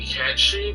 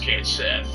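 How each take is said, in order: First: The name is said as two syllables, 'Ketchi'. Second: The name is said as 'Kate Sith'. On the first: It names the creature of legend. "It's actually Ketchi, but that's only if you're referring directly to the specific creature of legend" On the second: It names the game character. "The character in Final Fantasy seven, as per no Square Enix, is Kate Sith"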